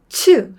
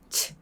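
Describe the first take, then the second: First: The vowel after the consonant is fully voiced. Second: The vowel is weakened to a puff of air. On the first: "츠 할 것을" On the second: "약하게 하면"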